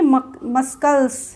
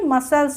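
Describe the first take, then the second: First: A k sound is heard after the s. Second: No k sound is heard after the s. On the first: The speaker calls it wrong. "न कि मस्कल्स" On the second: The speaker calls it right. "इसको क्या बोलते हैं, मसल्स"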